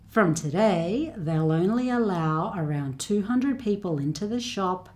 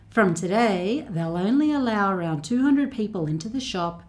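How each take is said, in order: No difference in how they are said.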